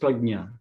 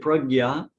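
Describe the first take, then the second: First: The middle cluster sounds like 'jn'. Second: The middle cluster sounds like 'gy'. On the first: This is the form used in Sanskrit. "and in Hin- Sanskrit it's prajna" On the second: This is the form used in Hindi. "but in Hindi we say pragya"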